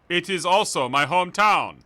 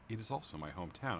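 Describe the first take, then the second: First: It is read in a put-on character voice. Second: It is read in an ordinary, natural voice. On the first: The speaker calls it right. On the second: The speaker calls it wrong.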